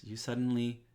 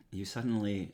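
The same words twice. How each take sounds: First: Suddenly lifted higher and louder; stress on suddenly. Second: Said in the usual way. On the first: Shown as a demonstration. The narrator retries the line, suddenly punched higher and louder. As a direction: hit suddenly for drama. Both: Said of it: "let's say this".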